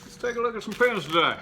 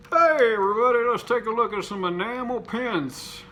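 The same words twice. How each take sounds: First: Said in the usual way. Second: Loud, higher hosting voice opening the show; upbeat YouTube host welcome; host intro. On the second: Shown as a demonstration. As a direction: greet the viewers like a presenter opening a video.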